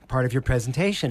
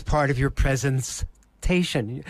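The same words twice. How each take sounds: First: Said in the usual way. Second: "presentation" broken as "presence", pause, "tation"; split-word pun. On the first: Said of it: "I took the word presentation". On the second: Shown as a demonstration. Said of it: "turned it into presence station".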